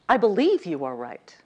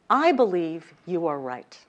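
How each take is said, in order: First: The stress falls on the word believe. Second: The stress falls on the word I.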